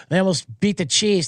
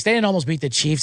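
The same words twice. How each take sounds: First: Said in the usual way. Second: Didnt pressed firm as a flat denial; stress on didn't. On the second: Shown as a demonstration. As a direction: lean into didnt to correct the claim.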